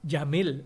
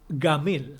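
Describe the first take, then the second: First: The first consonant is a j sound. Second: The first consonant is a hard g sound.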